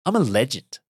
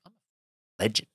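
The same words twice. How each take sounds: First: Higher, emphatic proud declaration; triumphant boast. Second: Slow, held-back proud realisation; understated self-praise. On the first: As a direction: proclaim it higher, owning the victory. Repeats boast with more force. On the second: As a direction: say it slowly, letting the pride dawn. Reliving proud return home after run. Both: Retold or imitated.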